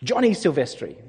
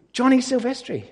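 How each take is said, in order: First: Said in the usual way. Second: Higher, clearer repeat of the name; repeated louder. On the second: Real, not acted. Repeating the name for a listener who missed it, higher. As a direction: say it again so they catch it. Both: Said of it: "Say again?".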